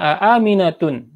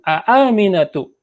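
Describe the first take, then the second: First: The name ends with an added n sound. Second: The name ends on a vowel, without n. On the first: The speaker calls it wrong. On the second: The speaker calls it right.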